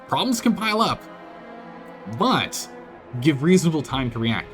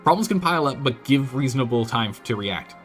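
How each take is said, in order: First: There is a pause after 'pile up'. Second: It runs on without a pause after 'pile up'. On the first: The speaker calls it right. "There's a pause there" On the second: The speaker calls it wrong. "Because otherwise"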